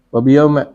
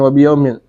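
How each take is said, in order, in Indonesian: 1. Kata ini diakhiri dengan vokal a pendek. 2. Kata ini diakhiri dengan i diikuti n. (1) "boleh juga dibaca fathah"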